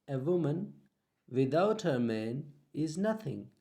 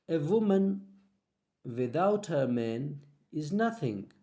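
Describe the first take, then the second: Both takes have the same delivery.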